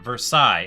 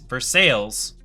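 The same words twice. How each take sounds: First: It is said the French way. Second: It is said the local Kentucky way. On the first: "not Versailles" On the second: "why is Versailles not Versailles"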